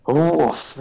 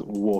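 First: Dog pronouncing woof; spoken woof. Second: Said in the usual way. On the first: Retold or imitated. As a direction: say woof as a word. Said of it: "he just goes". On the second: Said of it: "literally just pronounces".

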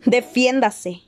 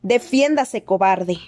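First: A mild shouted challenge, pitch a bit up; angry shout, slightly raised. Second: Shouted higher, sharper taunt; higher furious challenge. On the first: Harry daring Snape to fight, a mild raised shout. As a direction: challenge him without full force. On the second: Harry repeating his challenge to Snape, higher and sharper. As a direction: push the pitch up, spit the insult. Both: A narrator's reading. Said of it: "le gritó Harry".

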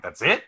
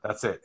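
First: Disbelieving, voice rising on "it"; incredulous question. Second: Said in the usual way. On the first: Retold or imitated. Querying a friend's one-slice pizza rule, incredulous.

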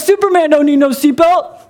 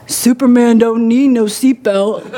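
First: Higher, louder, a bit hammed-up champ voice for "Superman don't need no seatbelt"; Muhammad Ali impression. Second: Slow, louder boxer's swagger voice, "Superman don't need no seatbelt"; Muhammad Ali impression. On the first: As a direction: ham up the cocky boxer, pitched up. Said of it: "Is that how he talked?". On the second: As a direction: drawl it out like a cocky champ. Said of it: "I'm gonna say this in the best way I can".

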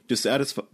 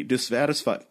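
First: "dissatisfied" breaking mid-word; voice cracking. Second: "dissatisfied" with a breaking voice; voice cracking. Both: Real, not acted. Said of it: "why can't I say the word dissatisfied today without my voice cracking".

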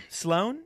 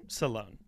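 First: Questioning "Sloan", no vowel after the S; name as one syllable. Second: "Salone" with a short vowel after the S; lower, softer "Salone", stressed on the end; name as two syllables. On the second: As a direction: say Salone as "suh-LOHN". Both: Shown as a demonstration. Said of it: "we're all over the map here".

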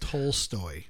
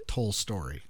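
First: "Tolstoy" said low, ending in "stoy"; "Tolstoy" with a clean "-stoy" ending; correct pronunciation. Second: "Tolstoy" said slowly as "Tol-story"; mispronunciation. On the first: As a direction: softly correct it to "Tolstoy", no extra r. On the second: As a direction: softly mimic the slip, "Tolstoy" as "Tol-story". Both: Shown as a demonstration. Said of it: "Not Tolstoy".

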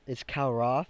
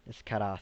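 First: Said in the usual way. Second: Karath with the R as a quick tap; accented R. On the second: Shown as a demonstration. Game master teaching the dragon's name, "Karath" with a tapped R. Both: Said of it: "but the R is pretty much accent".

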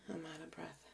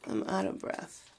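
First: Softer, worn-out repeat, still winded; out of breath. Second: Breathy gasp of a line, winded; pushing words out with no air left; out of breath. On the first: Repeating to viewers she's winded, tired and quiet. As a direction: let the air run out on it. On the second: Telling viewers she's winded, breathless gasp. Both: Real, not acted.

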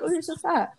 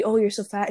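First: Higher, friendly compliment, not meant to hurt; genuine, kind. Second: Blunt, mean-sounding remark; rude. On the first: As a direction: say it kindly so it won't sting. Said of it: "genuinely not to hurt you". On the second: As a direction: say it like an insult. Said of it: "it sounds, like, really rude". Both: Shown as a demonstration.

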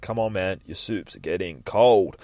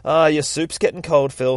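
First: Slow, drawn-out plea; mildly frustrated. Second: Slightly hammed-up call, louder and higher; lightly acted nagging. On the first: Acted. Carer to Phil about his soup, mildly frustrated. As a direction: coax him with understated exasperation. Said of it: "she's just getting frustrated". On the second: Lady chopping vegetables to Phil, raised-voice nagging. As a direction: call him to his soup.

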